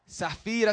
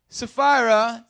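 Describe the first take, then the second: First: The name is said with a Spanish accent. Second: The name is said with an English accent.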